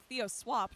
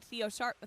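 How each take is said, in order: First: Theo Swap said slowly and deliberately; corrected name. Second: Theo Sharp said as a plain slip; name misspoken as Theo Sharp; wrong name. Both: Real, not acted. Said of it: "not Theo Sharp".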